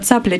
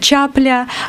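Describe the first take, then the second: First: The word begins with a 'ts' sound. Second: The word begins with a 'ch' sound. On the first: This is the standard form. "вместо цапля" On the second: This is the local dialect form.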